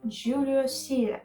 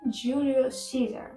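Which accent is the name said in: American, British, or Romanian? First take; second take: British; American. First: The name is said with a British accent. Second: The name is said with an American accent. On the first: "This is the British pronunciation" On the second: "American pronunciation is"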